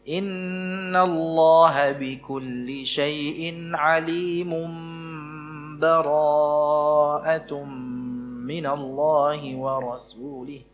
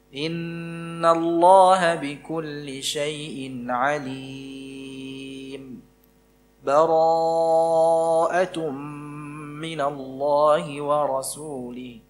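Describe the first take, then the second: First: The phrases run together with no break at all. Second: It pauses briefly between phrases without taking breath. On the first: "Kalau disambung seperti tadi, tanpa basmalah ya" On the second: "itu dengan berhenti sejenak tanpa mengambil nafas"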